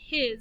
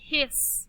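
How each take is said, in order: First: The word ends with a buzzing z sound. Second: The word ends with a hissing s sound. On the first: The speaker calls it right. "another one that has a Z sound at the end" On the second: The speaker calls it wrong. "if I sound it out, it'd be hiss. But it's not hiss"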